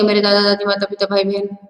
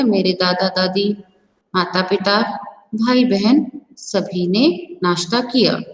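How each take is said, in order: First: The names run together without pauses. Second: There is a short pause after each name.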